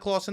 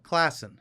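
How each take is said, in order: First: The first vowel is a long 'aw' sound. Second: The first vowel is a short flat 'a'. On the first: This is the speaker's own way of saying it. "You know that nobody calls it Clawson Ave" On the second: This is how everyone else says it. "What do they call it?"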